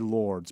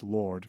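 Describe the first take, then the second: First: The name ends with an audible S sound. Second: The name ends without any S sound. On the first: The speaker calls it wrong. "we say lords" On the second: The speaker calls it right. "you don't say the S"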